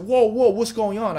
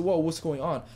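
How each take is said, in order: First: Higher, louder startled whoa; reliving the startled shout at the scream; retold alarm. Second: Said in the usual way. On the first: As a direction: jump in alarm as if hearing a scream.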